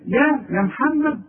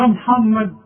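First: يا محمد with a plain light يا; vocative ya. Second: يا محمد with a heavy rounded يا; the thick يا of يا محمد. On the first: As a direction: call يا محمد simply. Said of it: "حرف الندى". (يا محمد بياء النداء) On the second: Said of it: "ولا يا محمد". (يا محمد بياء مفخمة) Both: Shown as a demonstration.

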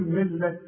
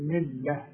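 First: "ملة" said wrongly, keeping the t at the pause; wrong take. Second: "ملة" said softly, ending on an h sound at the pause. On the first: Teacher showing the wrong pausal ending of "ملة". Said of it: "مش اقول". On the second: Teacher showing the pausal h ending of "ملة". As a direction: stop on "ملة" with a soft h. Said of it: "التاء المربوطة بتتحول الى ه". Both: Shown as a demonstration.

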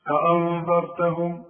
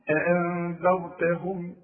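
First: أأنذرتهم with thick, heavy hamzas and ذ; wrong heavy hamzas. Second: Slow أأنذرتهم with thin, light hamzas. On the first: Teacher showing a student's heavy أأنذرتهم. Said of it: "ما تقوليش". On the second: Teacher giving the correct, slow أأنذرتهم. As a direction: recite أأنذرتهم slowly and light. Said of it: "ادي كل حرف حقه". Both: Shown as a demonstration.

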